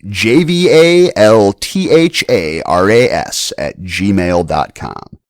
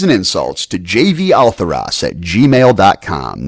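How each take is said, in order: First: Slow, spelled out letter by letter; slow dictation. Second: Said in the usual way. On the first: Real, not acted. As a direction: dictate it slowly so they can write. Spelling out email address slowly.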